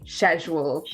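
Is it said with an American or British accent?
British. It is said the British/Irish way.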